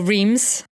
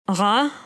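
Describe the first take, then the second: First: The name is said with an English pronunciation. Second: The name is said with a French pronunciation. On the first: "the English uh, way of saying it" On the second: "I'm going to try and pronounce this the French way"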